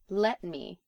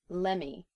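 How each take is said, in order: First: Both words are pronounced fully and separately. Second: The words run together into one reduced form.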